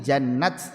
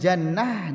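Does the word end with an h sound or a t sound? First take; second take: t sound; h sound. First: The word ends with a t sound. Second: The word ends with an h sound. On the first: "ini jannat dengan tak" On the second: "wakafnya dengan jannah dengan hak"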